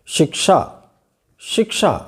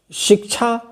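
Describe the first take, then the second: First: शिक्षा said with a clear श at the end; शिक्षा with क then श, no छ; correct क्ष. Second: शिक्षा said as shikchha; the mistaken शिक्षा with a छ sound; wrong क्ष as छ. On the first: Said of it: "क्या होना चाहिए सही उच्चारण?". (शिक्षा का सही उच्चारण, अंत में श) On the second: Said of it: "शब्द नहीं होता है". (शिक्षा को "शिक्छा" बोलना, गलत) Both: Shown as a demonstration.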